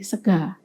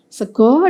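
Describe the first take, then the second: First: It is said in the Banyumasan dialect, ending in 'a'. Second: It is said in the Solo-Jogja dialect, ending in 'o'. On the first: "dalam dialek Banyumasan menjadi" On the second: "dalam dialek Solo Jogja"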